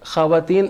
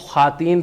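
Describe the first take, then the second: First: A 'w' sound follows the 'kh'. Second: No 'w' sound follows the 'kh'. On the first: The speaker calls it wrong. "ख़वातीन actual word नहीं है" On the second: The speaker calls it right. "उसको ख़ातीन pronounce किया जाता है"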